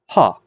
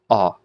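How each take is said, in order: First: The vowel starts with an h sound. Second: The vowel starts with no h sound. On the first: "It gives it sort of an H sound" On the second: "Smooth breathing marks have no effect on the pronunciation"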